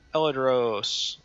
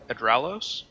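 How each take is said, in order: First: The name begins with 'El' and ends 'dros'. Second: The name begins with 'Ed' and ends 'los'. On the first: The speaker calls it wrong. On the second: The speaker calls it right.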